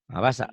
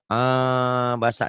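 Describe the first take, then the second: First: The opening sound is cut short, then restarted. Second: The opening sound is held long before continuing. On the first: The speaker calls it right. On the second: The speaker calls it wrong. "Putusin jangan jangan ditahan. ... jangan"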